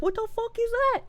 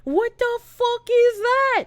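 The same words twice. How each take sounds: First: High, softer baffled voice; mock bewilderment. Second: High, drawn-out incredulous cry. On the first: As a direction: quote baffled listeners in a small high voice. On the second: Retold or imitated. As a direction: stretch it out in mock horror. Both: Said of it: "they're like".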